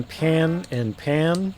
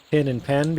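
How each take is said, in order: First: "pan and pan" said slowly with the same merged vowel; "pan and pan" said alike; "pan and pan" both with the same vowel. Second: Said in the usual way. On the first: Shown as a demonstration. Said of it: "become pan and pan". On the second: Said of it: "Pin and pen become pan and pan".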